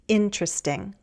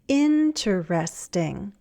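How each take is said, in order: First: One syllable of the word is dropped. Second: Every syllable of the word is pronounced. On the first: "a shorter one" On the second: "a longer one"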